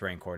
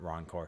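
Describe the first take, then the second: First: The first vowel sounds like the one in 'ran'. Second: The first vowel sounds like the one in 'ron'. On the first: The speaker calls it right. "it's Rancor" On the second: The speaker calls it wrong. "not Roncor"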